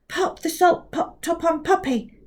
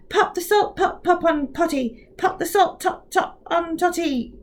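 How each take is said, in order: First: Careful, pitched-up precise reading. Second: Rushed, stumbling "Pop the salt pot pop on"; hurried, tripping. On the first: Kovac speaks precisely to the mouth. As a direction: pronounce every sound of "Pop the salt pot top on". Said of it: "tried to speak very precisely". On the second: Kovac rushes the twister and stumbles. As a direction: trip over the words at speed. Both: Acted.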